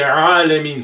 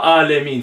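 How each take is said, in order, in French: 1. Le premier son vient du fond de la gorge. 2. Le premier son est simple, pas de la gorge. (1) "Ça vient de là, la gorge" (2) "c'est pas Alamin"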